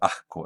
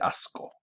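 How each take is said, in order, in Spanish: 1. La s se expulsa como una h. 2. La s es un sonido sibilante claro. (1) "como una aspiración, en el caso de asco" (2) "en vez de asco"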